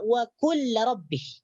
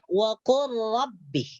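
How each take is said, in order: First: The L is pronounced separately before the R. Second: The L is merged into the following R. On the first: The speaker calls it wrong. "Jangan dibaca" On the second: The speaker calls it right. "lam di sini dimasukkan ke dalam huruf ra"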